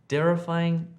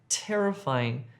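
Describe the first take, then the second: First: The word begins with a d sound. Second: The word begins with a t sound. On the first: The speaker calls it wrong. "you need to change that d sound to a t" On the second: The speaker calls it right. "to a t"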